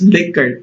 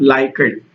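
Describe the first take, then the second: First: The first syllable sounds like 'lick'. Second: The first syllable sounds like 'like'. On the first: The speaker calls it right. "It's actually pronounced as liquor" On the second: The speaker calls it wrong. "not Likert"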